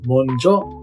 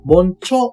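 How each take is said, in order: First: The second syllable starts with a voiced j. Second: The second syllable starts with a voiceless ch. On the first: The speaker calls it right. "モンジョと有声音化になります" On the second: The speaker calls it wrong. "モンチョではなく"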